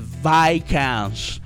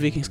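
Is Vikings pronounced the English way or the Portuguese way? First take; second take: English; Portuguese. First: The word is said with English pronunciation. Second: The word is said with Portuguese pronunciation. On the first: It is said as in the original language. "É Vikings" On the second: It is said according to the local language. "não é Vikings"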